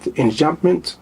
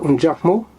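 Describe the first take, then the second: First: The word is pronounced with English sounds. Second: The word is pronounced with French sounds. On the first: "in English, they pronounce it" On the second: "It's a French word"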